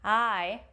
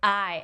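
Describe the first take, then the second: First: The vowel starts softly with an open onset. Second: The vowel starts with a hard glottal catch.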